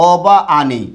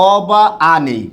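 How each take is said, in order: Both takes have the same delivery.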